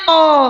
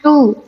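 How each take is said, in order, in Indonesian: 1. Vokalnya bunyi 'o' terbuka. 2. Vokalnya bunyi 'u' membulat. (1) "jangan to" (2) "bagaimana bunyi ta domah? Tu"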